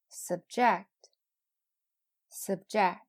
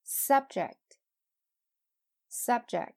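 First: "subject" with schwa first, punched JECT; "subject" as a verb: sub-JECT, said twice; verb stress on second syllable. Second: "subject" with high SUB, falling on ject; "subject" as a noun: SUB-ject, said twice; noun stress on first syllable. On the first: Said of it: "后边是动词". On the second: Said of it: "前面是名词，后边是动词". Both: Shown as a demonstration.

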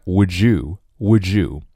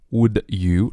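First: "would you" merged as "wou-joo"; linked words. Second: Said in the usual way. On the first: Shown as a demonstration. Teacher showing learners the link, "would you" as "wou-joo". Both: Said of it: "连起来".

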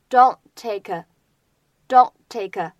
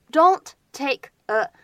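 First: "don't take a" as don' take-uh, first t held back; unreleased t, linked. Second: Said in the usual way. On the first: Shown as a demonstration. Teacher showing lost plosion, "don't take a" as don' take-uh. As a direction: swallow the t of "don't", join "take a". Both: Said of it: "前两者呢有失去爆破的现象".

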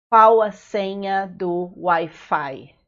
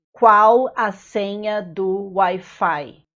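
First: Said in the usual way. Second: Slow, careful and clear; slow model phrase. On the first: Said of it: "teacher repeats phrase at normal pace". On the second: Shown as a demonstration. Teacher to foreign learners, slow careful model phrase. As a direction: spell it out slowly for the learner. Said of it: "teacher models phrase for learners".

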